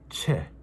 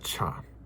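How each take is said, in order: First: The word ends with an 'eh' vowel. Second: The word ends with an 'ah' vowel. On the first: The speaker calls it right. "It is che" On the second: The speaker calls it wrong. "I was pronouncing cha wrong"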